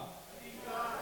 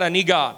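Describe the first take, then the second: First: Whispered prayer of need; hushed plea. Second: Said in the usual way. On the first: Shown as a demonstration. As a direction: breathe it out unvoiced. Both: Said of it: "Can you say that?".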